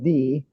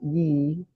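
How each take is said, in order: First: The word starts with a th sound. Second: The word starts with a y sound. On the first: The speaker calls it right. "back in the Middle Ages, they just said the. The Y was a T H sound" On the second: The speaker calls it wrong. "a lot of people would pronounce it ye"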